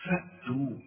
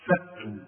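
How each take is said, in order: First: On فأتوا, a firm glottal stop after the fa; فأتوا with a clean stop; stopped hamza. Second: On فأتوا, a clear glottal stop before the long a; hamza pronounced. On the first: Teacher repeats فأتوا correctly. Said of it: "سكن بالهمزة دي". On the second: Teacher shows the correct فأتوا. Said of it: "اوعى تقول فاتوا". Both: Shown as a demonstration.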